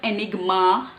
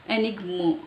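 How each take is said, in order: First: The vowel is pronounced as an 'ah' sound. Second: The vowel is pronounced as an 'uh' sound. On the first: The speaker calls it wrong. "It's not enigma" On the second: The speaker calls it right. "We hear it as ah, but it's uh"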